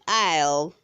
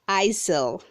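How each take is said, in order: First: The S sound is not pronounced. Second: An S sound is pronounced in the middle. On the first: The speaker calls it right. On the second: The speaker calls it wrong.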